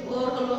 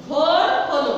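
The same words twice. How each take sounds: First: Said in the usual way. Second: ভোর hit louder, with a long drawn o; ভোর said with force and a lengthened vowel; stress on ভোর. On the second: Shown as a demonstration. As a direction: lean hard on ভোর, stretching its o. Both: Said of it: "জোর দিয়ে বলি".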